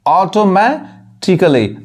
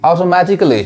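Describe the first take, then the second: First: ऑटोमेटिकली drawn out slowly, ending "kuh-li"; ऑटोमेटिकली slow, "auto-matti-klee"; silent A. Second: Said in the usual way. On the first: Shown as a demonstration. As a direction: say ऑटोमेटिकली slowly in parts, a reduced. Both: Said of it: "इसको क्या पढ़ेंगे".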